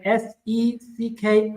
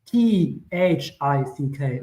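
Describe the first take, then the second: First: Slow letters S E C K, each named apart; wrong spelling spelled out slowly; spelling out the wrong word. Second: Slow letters T H I C K, each named apart; spelling out the right word. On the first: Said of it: "I don't say S E C K". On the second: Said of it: "I say T H I C K". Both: Shown as a demonstration.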